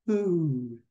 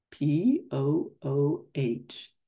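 First: Said in the usual way. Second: P O O H, letter by letter, slow; spelled out slowly. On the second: Shown as a demonstration. Pooh spelling his name as he prints it, slow letters. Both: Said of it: "he printed slowly".

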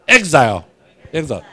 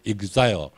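First: Exile said eks-zile with a long i, in the American way; American pronunciation. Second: Exile said ig-zai-yo with a soft Japanese ending; Japanese pronunciation. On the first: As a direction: model the American exile for students to repeat. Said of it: "这是正确的美国发音啦". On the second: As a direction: mimic the Japanese-accented exile. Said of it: "拢讲做是". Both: Shown as a demonstration.

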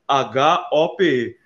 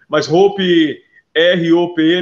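First: "H O P E" spelled slowly letter by letter, each letter distinct; correct spelling. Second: "R O P E" spelled out letter by letter, louder, as the wrong version; wrong spelling. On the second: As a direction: spell "R O P E" loudly to set up the correction. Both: Shown as a demonstration. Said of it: "não".

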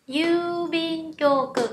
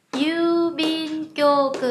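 First: Yubin kyoku slowly, a long yu and a falling end; long vowel yu. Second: Yubin kyoku with a long, drawn out yu at the start; long vowel yu. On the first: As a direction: hold the yu of yubin kyoku, then fall. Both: Shown as a demonstration. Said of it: "chúng ta cũng có trường âm".

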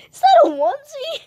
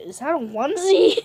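First: Very high, loud question; incredulous squeal. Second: Said in the usual way. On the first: Real, not acted. Player asking Steve about his onesie, incredulous squeal. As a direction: ask it again in a loud squeak.

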